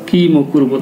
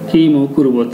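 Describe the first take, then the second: No difference in how they are said.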